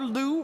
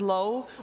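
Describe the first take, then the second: First: The vowel sounds like the one in 'do'. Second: The vowel sounds like the one in 'go'. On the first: This is a variant people sometimes use. "which sometimes you also will hear that" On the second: This is the player's official pronunciation. "his official pronunciation is supposed to be Low"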